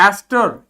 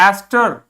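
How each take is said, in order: The two takes are said the same way.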